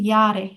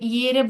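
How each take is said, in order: First: The first vowel sounds like an open 'a'. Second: The first vowel sounds like an 'e'. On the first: The speaker calls it right. "এটা হবে ইয়ারে" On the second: The speaker calls it wrong. "ইয়ারে ইয়েরে বলছিলেন"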